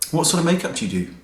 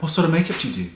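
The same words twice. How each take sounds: First: High, fast, sniffy question; mildly hammed-up snooty guy; snooty guy impression. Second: Ape his condescension, head tilted; hammed-up snooty stand guy; snooty guy impression. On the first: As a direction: imitate his condescending tone. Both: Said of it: "Like that".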